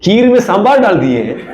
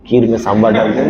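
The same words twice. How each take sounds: First: High, laughing outrage; mock outrage through laughter; laughing mock indignation. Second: Sheepish confession. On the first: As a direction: huff through a laugh, pitched up. Mocking retelling of mistake. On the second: Acted. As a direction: own up with a small laugh.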